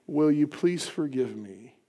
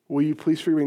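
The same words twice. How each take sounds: First: Softer, slow, humble request; soft plea. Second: Said in the usual way. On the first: Shown as a demonstration. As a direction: ask it gently, slowly. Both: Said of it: "this very important question".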